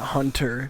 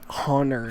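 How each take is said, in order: First: The T sound in the middle is clearly pronounced. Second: The T sound in the middle is dropped. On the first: The speaker calls it wrong. "It's not Hunter. I hate when people hit the T" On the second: The speaker calls it right. "It's Hunter. I'd rather my name be spelled with two N's"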